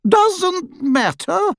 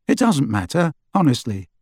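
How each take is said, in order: First: Far higher, slow disbelieving echo of his words; incredulous echo. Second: Said in the usual way. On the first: A narrator's reading. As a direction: throw his words back at him, stunned. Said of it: "repeated Hestia". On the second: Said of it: "Harry assured her".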